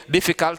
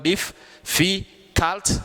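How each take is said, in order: First: Said in the usual way. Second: "diff, fi, cult" in three higher, separated beats; syllable by syllable. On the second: Shown as a demonstration. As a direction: break difficult into "diff", "fi", "cult" with clear gaps. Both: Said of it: "three syllable word".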